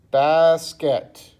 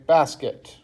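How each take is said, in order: First: "basket" drawn out as bas, ket; louder "basket", broken into two beats; syllable by syllable. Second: Said in the usual way. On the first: Shown as a demonstration. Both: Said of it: "we probably have two syllables here".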